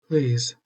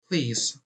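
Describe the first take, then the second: First: It is said in a put-on character voice. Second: It is said in the speaker's natural voice.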